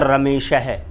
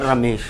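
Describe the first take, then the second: First: The word ends with an added breathy h sound. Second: The word ends plainly with no added breath. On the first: "रमेश के बाद में मैंने विसर्ग लगा दिया" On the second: "मैंने बोल दिया रमेश"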